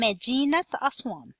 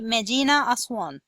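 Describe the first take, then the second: First: The first word ends in a 't' sound. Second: The first word ends in an 'a' sound. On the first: The speaker calls it right. "pronounce تاء مربوطة T sound instead of A sound" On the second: The speaker calls it wrong. "You are not going to say مدينة أسوان. مدينة أسوان is incorrect pronunciation"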